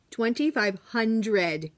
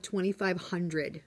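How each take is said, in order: First: "twenty-five hundred" slowed right down, each word weighted; emphatic repeat. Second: Said in the usual way. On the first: Real, not acted. Teacher amazed at bulk eraser packs, "twenty-five hundred" slow and emphatic.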